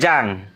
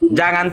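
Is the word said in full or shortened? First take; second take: shortened; full. First: The word is cut to one short syllable. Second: The word is said in full, two syllables.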